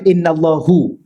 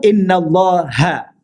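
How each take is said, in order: First: The word ends with an 'u' vowel. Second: The word ends with an 'a' vowel. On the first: The speaker calls it wrong. "jangan baca innallahu" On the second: The speaker calls it right. "dia perkataan selepasnya huruf akhir baca baris atas"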